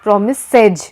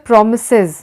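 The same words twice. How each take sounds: First: Promises ending in a slow, spelled-out es; wrong es ending. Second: Promises ending in a light English iz; correct es ending. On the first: Teacher slowly showing the wrong ending on promises. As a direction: drag out the last syllable of promises letter by letter. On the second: Teacher showing the right ending on promises, a light iz. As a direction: glide through promises to a short iz. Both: Shown as a demonstration. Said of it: "not promises".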